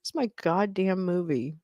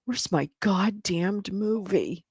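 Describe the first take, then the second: First: Said in the usual way. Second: Slow, drawn-out complaint; mock exasperation. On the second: Shown as a demonstration. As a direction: stretch "goddamned movie" in frustration.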